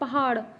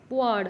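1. ਵਿਚਕਾਰਲੀ ਹ ਧੁਨੀ ਸਾਫ਼ ਬੋਲੀ ਜਾਂਦੀ ਹੈ। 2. ਵਿਚਕਾਰਲੀ ਹ ਧੁਨੀ ਛੱਡ ਦਿੱਤੀ ਜਾਂਦੀ ਹੈ।

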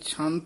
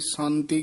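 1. ਇਹ ਸ਼ਬਦ ਇੱਕ ਅਸਪਿਰੇਟਿਡ 'ch' ਧੁਨੀ ਨਾਲ ਸ਼ੁਰੂ ਹੁੰਦਾ ਹੈ। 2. ਇਹ ਸ਼ਬਦ ਇੱਕ ਸਾਦੀ 's' ਧੁਨੀ ਨਾਲ ਸ਼ੁਰੂ ਹੁੰਦਾ ਹੈ। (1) "ਇਹ ਛੰਤ ਹੀ ਉਚਾਰਨ ਕਰਨਾ" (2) "ਕਈ ਅਣਜਾਣ ਪਾਠੀ ਸੰਤੀ ਕਹਿ ਜਾਂਦੇ ਹਨ"

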